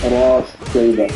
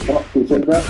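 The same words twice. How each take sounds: First: "راس شيبة" with the seen merged into the sheen; joined letters. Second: Said in the usual way. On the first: Shown as a demonstration. Teacher shows the Susi reading joining the letters. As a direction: run "راس شيبة" together, the seen assimilated. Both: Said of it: "instead of saying".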